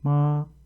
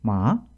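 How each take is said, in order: First: The pitch stays high and level throughout. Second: The pitch dips, then ends up high. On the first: "평성일 때에도 약간 높게 발음을 해야 됩니다" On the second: "뒤를 어, 좀 높은 쪽에서 끝나게 됩니다"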